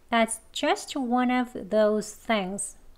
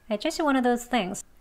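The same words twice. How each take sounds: First: The sentence is spoken slowly, every sound clear. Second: The sentence is spoken very fast, v dropped. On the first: "천천히 두 번 할게요" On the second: "가장 빨리 발음할 땐"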